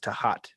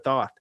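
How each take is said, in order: First: The name is said with two syllables. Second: The name is said with one syllable. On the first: "the proper pronunciation is Tahat" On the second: "It was a Thoth or Thoth"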